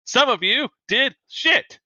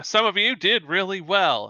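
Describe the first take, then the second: First: High, slow, punched-out scorn; scathing contempt. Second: Instructor's praise, a little higher; measured praise. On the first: Instructor to the failing students, scathing contempt. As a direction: drag out the insult, pitch leaping up. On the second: Instructor to the top students, lightly acted praise. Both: Acted. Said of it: "She's like".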